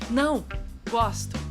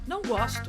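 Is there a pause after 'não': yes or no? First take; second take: yes; no. First: It is said with a pause after 'não'. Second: It is said without a pause after 'não'.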